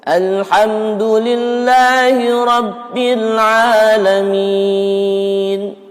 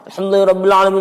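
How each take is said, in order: First: It is recited at a moderate, measured speed. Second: It is recited extremely fast, words nearly mumbled. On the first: "Tapi kalau tartil, ... Beda cepatnya ya" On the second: "hadramah itu gimana? Cepat banget"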